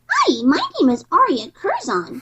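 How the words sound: Ducky's voice, with pitch going up and down.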